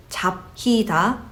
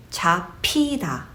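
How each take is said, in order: First: 잡히다 said as separate "jap-hi-da"; unmerged sounds. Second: 잡히다 said as "cha-pi-da" with a puffed p; merged aspiration. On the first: Teacher shows what you don't say, unmerged sounds. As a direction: keep the b and h of 잡히다 apart. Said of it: "you don't really say". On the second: Teacher shows what you really say, merged aspiration. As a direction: merge 잡히다 into a plosive "pi" syllable. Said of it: "but you say". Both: Shown as a demonstration.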